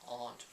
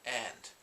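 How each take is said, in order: First: It is said with a British accent. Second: It is said with an American accent. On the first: "if you're a British English speaker" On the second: "or an American English speaker"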